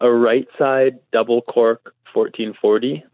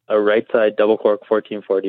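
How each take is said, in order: First: The phrase is said slowly and carefully. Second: The phrase is said at a normal, quick pace.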